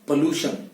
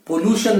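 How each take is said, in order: First: पोल्यूशन, the right form; correct pollution. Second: पोल्यूशन, the mistaken form; पोल्यूशन said the common wrong way; wrong pollution. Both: Shown as a demonstration. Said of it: "पोल्यूशन नहीं".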